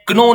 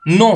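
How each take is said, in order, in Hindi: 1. यह शब्द k ध्वनि से शुरू होता है। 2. यह शब्द n ध्वनि से शुरू होता है। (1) "नो में क्नो नहीं बोलते" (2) "नो है"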